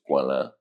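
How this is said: The name is said with a French pronunciation. "the French pronunciation is"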